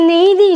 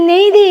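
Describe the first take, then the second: Both takes have the same delivery.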